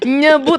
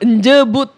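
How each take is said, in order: First: The word begins with a 'ny' sound. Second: The word begins with an 'nj' sound. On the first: This is how it should be said. The speaker calls it right. "Yang nyebut harusnya" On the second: This is how someone else said it. The speaker calls it wrong. "Dia bilang, njebut"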